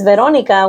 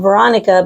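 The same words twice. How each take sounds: First: The name is said with a Spanish accent. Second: The name is said with an English accent.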